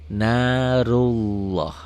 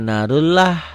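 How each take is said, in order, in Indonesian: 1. Bunyi L-nya tebal dan berat. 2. Bunyi L-nya tipis dan ringan. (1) "tebel, tafkhim" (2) "Bukan narullah"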